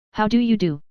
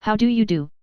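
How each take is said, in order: First: "do" given great weight at the end of the greeting; stress on DO. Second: Greeting raised in pitch early, with the weight taken off a final "do"; vary the greeting by stressing a word before "do"; altered emphasis. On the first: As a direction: lean hard on the final "do", pitch raised then falling. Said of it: "laying great stress on the last word". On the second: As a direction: shift the emphasis earlier than the last word "do". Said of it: "altering the emphasis". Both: A narrator's reading.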